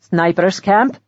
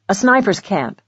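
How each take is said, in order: First: A questioning echo, rising at the end; mildly startled. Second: Said in the usual way. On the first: A narrator's reading. Host reacting to news of the camp, mildly startled. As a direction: repeat it as a surprised question. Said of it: "He looked startled".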